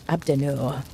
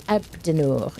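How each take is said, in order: First: Outrageous French accent. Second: Said in the usual way. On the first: Shown as a demonstration. Streamer greeting a viewer in a mock French accent. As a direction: roll Abdenor out like a hammy Frenchman. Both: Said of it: "say your name in an outrageous French accent".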